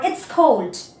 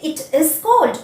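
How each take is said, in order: First: It and is are joined into one syllable. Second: It and is are said fully and separately.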